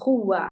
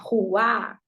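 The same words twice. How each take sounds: First: The stress is on the first syllable. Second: The stress is on the last syllable. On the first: The speaker calls it right. "em vez de falar rua" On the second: The speaker calls it wrong. "a acentuação da palavra a gente vê geralmente com uma marcação mais no final"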